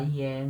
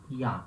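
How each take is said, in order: First: "Ien" read as written, ee-EN with sounded n; mistaken spelling pronunciation. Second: "Ian" as a yan glide with nasal vowel; French nasal ending. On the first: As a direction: give "Ien" an eh vowel and audible n. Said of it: "Não vai falar Ien". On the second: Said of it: "pronuncia Ian". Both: Shown as a demonstration.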